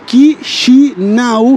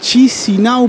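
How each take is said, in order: First: The name is said with a Romanian pronunciation. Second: The name is said with a Spanish pronunciation. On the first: "se pronuncia Chisinau en rumano" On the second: "podría llegar a ser el nombre en español"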